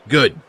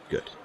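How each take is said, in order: First: Firm loud. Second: Said in the usual way. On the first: Acted. Closes phone argument firmly.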